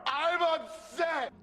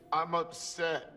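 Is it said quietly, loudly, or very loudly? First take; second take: very loudly; quietly. First: It is said very loudly. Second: It is said at a quiet level.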